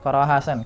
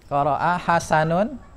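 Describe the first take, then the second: First: The name ends bare, without the ending. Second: The name ends with a full 'un' ending. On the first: The speaker calls it wrong. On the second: The speaker calls it right.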